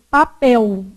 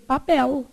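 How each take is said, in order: First: "Papel" said with the final L sounding like U, "papéu"; vocalized L. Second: "Papel" with a clear tongue L at the end, no U sound; southern Brazilian L. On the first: Teacher showing the class the L said as U in "Papel". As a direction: end "Papel" on a U glide, not a tongue L. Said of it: "ele pode ser pronunciado com som de U". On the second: Teacher showing how people in the south of Brazil say "Papel". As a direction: finish "Papel" with a real L, lightly and softly. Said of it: "no sul do Brasil, as pessoas falam o quê?". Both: Shown as a demonstration.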